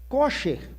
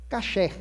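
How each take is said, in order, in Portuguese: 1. A primeira vogal é um som de 'o'. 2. A primeira vogal é um som de 'a'.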